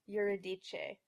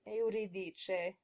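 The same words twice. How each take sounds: First: It begins with an R-colored schwa. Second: It begins with two clear, distinct vowels. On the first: The speaker calls it wrong. "with an R-colored schwa followed by a regular schwa" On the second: The speaker calls it right. "In Italian, the first syllable is pronounced as two clear, distinct vowels"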